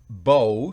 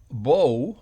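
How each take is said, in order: First: It is given the noun pronunciation. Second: The same.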